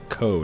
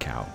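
First: The vowel sounds like the one in 'go'. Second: The vowel sounds like the one in 'now'. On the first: The speaker calls it wrong. "Someone told me to pronounce it Co" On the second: The speaker calls it right. "It's cow. I'm American, I know these things"

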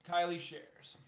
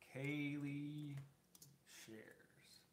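First: The name's first vowel sounds like 'eye'. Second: The name's first vowel sounds like 'ay'. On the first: The speaker calls it wrong. "I've been saying it wrong" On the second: The speaker calls it right. "It's Kaylee shares"

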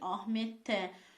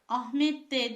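First: The suffix starts with a t sound. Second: The suffix starts with a d sound. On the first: The speaker calls it right. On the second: The speaker calls it wrong.

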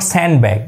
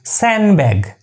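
First: A D sound is pronounced in the middle. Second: No D sound is pronounced in the middle. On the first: The speaker calls it wrong. "It's not sandbag" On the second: The speaker calls it right. "It's sandbag"

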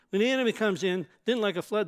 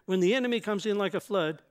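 First: The pause comes after in. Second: The pause comes after flood.

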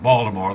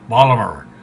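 First: It is said in a standard American accent. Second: It is said in a local Maryland accent. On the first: This is how outsiders say the name. "they don't call it Baltimore" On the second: This is how locals say the name. "they say Baltimore"

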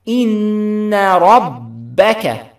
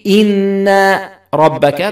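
First: The vowel after the nasal n is kept short. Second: The vowel after the nasal n is drawn out long. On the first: The speaker calls it right. "it ends with a fatha, not an alif" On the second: The speaker calls it wrong. "So don't say إن ربك. That's wrong"

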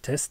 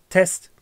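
First: The voice is recorded at a quiet level. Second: The voice is recorded at a louder level. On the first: The speaker calls it wrong. "Ist es laut genug? Ich glaube nicht" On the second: The speaker calls it right. "Machen wir das alles mal ein bisschen lauter"

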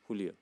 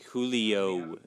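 First: The name is said with a Spanish accent. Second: The name is said with an English accent. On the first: "But we say Julio" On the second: "But in English, you say Julio"

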